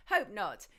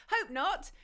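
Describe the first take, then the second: First: Said in the usual way. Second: Hope not, lifted up higher at the end; asking it lightly, voice rising high; hopeful rise. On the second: Real, not acted. Host answers listeners on the sound, hopeful rising. Reply to listeners on audio volume.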